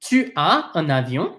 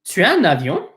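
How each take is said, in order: First: It is said at a slower, careful pace. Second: It is said at a normal, quicker pace.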